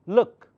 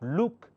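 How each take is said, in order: First: The vowel is a short 'u' sound. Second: The vowel is a long 'oo' sound. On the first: The speaker calls it right. "It's look" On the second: The speaker calls it wrong. "but it's not look"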